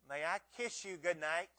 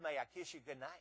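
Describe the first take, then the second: First: It is said a little louder. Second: It is said at a quiet, normal volume.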